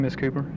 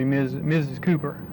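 First: The title is reduced and run into the name. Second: The title is said fully and distinctly. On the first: This is how it sounds in everyday speech. "I slur all that together" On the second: This is how it sounds when speaking deliberately. "But being careful"

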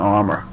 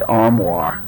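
First: The word ends with a plain 'er' sound. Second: The word ends with a French-like 'wahr' sound. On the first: This is how the speaker grew up saying it. "When I grew up, it was always an armor" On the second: This is how many other people say it. "a lot of people say armoire"

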